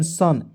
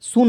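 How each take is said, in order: First: सन with a short "uh" vowel; correct pronunciation. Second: सुन with an "oo" vowel; wrong pronunciation. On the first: Teacher reading out S-U-N, demonstrating correct pronunciation. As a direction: say सन as "sun", u unsounded. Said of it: "S U N सन पढ़ेंगे". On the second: Teacher warning against misreading S-U-N, demonstrating wrong pronunciation. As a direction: say सुन as "soon", sounding the u. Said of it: "सुन नहीं लिखेंगे". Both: Shown as a demonstration.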